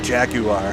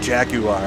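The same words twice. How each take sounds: First: It is said with a British pronunciation. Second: It is said with a British pronunciation.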